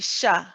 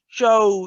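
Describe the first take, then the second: First: The sh sound is light, with unrounded lips. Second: The sh sound is heavy, with rounded lips. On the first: The speaker calls it right. "you say the fatha of the sheen first" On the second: The speaker calls it wrong. "You're using your lips for the sheen"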